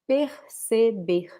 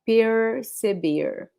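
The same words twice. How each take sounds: First: The R sounds almost like a breath. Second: The R sounds like an English R. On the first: "So the R, it's almost like a breath" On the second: "Some other regions will say it like the R from English"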